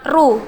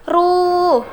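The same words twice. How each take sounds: First: The vowel is cut short. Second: The vowel is held long. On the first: "cuma ru" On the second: "itu lebih panjang"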